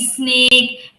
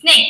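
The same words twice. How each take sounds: First: An extra vowel comes before the s sound. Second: The word starts directly with the s sound. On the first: The speaker calls it wrong. "the E sound which is coming in front of the words" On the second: The speaker calls it right. "You have to say snake"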